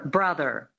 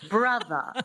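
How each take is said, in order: First: It is said in a standard American accent. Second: It is said in a transatlantic accent.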